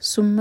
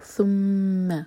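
First: The first consonant is an s sound. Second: The first consonant is a th sound. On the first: The speaker calls it wrong. "اس کو سین بنانا غلط ہے, ثم نہیں ہے یہ" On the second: The speaker calls it right. "یہ ہے ثم"

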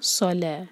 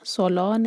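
First: The L sound is light and thin. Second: The L sound is heavy and thick. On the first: The speaker calls it right. "لام لائٹ ہے" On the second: The speaker calls it wrong. "صلا نہیں"

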